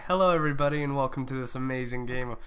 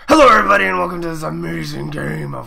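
First: It is said in an ordinary speaking voice. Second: It is said in a deep, gravelly voice. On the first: "that doesn't sound right" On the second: "Oh, my God, I'm Batman"

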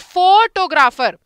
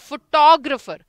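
First: The stress is on the first syllable. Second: The stress is on the second syllable. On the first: The speaker calls it wrong. "जो हम आप गलत बोलते हो ना, ये उच्चारण इसका गलत करते" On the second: The speaker calls it right. "हम टो पे ज्यादा जोर डालते हैं"

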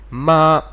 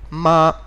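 First: The pitch stays level throughout the syllable. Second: The pitch stays level throughout the syllable.

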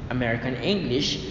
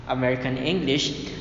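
The two takes are said the same way.

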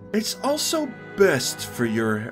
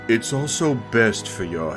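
First: The voice is at a higher, more natural pitch. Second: The voice is pitched low and deep. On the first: The speaker calls it wrong. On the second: The speaker calls it right.

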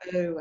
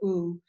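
First: The oo vowel is said in an Australian accent. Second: The oo vowel is said in an American accent. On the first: "Australians go ooh" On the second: "Americans go ooh"

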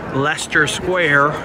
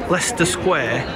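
First: It is said in an American accent. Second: It is said in a British accent. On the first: "in American English" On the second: "as people here say"

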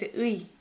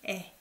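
First: The particle is pronounced as the diphthong 'ui'. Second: The particle is pronounced as the plain vowel 'e'. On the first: "I don't pronounce it as 의" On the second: "I say as 에"

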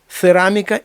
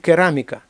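First: The word begins with a ts sound. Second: The word begins with a k sound. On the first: The word was borrowed the way it was written. "в одній мові перейшли так, як вони пишуться" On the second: The word was borrowed the way it sounded. "а в іншій мові перейшло так, як звучало"

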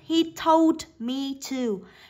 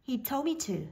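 First: The d at the end of told is pronounced. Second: The d at the end of told is dropped.

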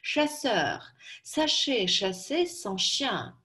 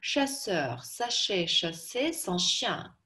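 First: It is spoken slowly and carefully. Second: It is spoken at a quicker pace. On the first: "Я сначала произнесу ее медленно" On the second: "Теперь побыстрее"

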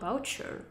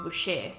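First: The name is said with an English accent. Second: The name is said with a French accent.

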